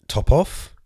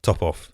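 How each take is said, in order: First: "top off?" with a rising, questioning tune; doubting question. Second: Breaking into a laugh at it; amused realization. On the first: Shown as a demonstration. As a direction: query the phrase "top off" as if unsure of it. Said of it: "probably not the appropriate phrase". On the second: Real, not acted. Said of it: "that's probably not the appropriate phrase".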